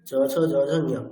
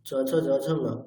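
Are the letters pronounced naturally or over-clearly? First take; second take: over-clearly; naturally. First: The letters, especially the last, are over-articulated. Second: The letters are said lightly, as in words. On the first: The speaker calls it wrong. "ঠিক একই রকম ভাবে" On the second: The speaker calls it right. "এরকম"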